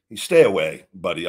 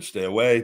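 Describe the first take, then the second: First: A sharp, loud "stay away", dropping in pitch; stern warning. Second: Said in the usual way. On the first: Real, not acted. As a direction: warn him off hard. Warning Chase directly.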